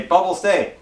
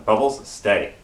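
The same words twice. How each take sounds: First: Mock frustration in a retold command; retold worked-up command. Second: Low, measured order to a dog; retold dog command, kept low and restrained; retold calm command. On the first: Owner to dog who keeps running forward, mildly worked-up command. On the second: Owner telling his dog to stay at the door, calm command.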